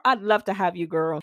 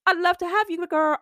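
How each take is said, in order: First: Said in the usual way. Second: Much higher, bright sing-song invitation; squealing I'd love to have you, girl; excited welcome. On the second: Acted. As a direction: gush it like greeting a friend. Enthusiastic welcome to new clients.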